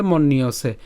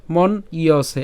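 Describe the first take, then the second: First: "মন নিয়সে" run together as one word; joined pronunciation. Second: "মন ইয়সে" broken after মন; split pronunciation. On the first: Teacher joins the parts for learners, "মন নিয়সে" in one piece. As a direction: link "মন নিয়সে" with a doubled n, mon-niyose. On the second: Teacher breaks up the word for learners, "মন ইয়সে" in two parts. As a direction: say "মন ইয়সে" as two parts, mon then iyose. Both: Shown as a demonstration. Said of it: "একসাথে বললে মন নিয়সে".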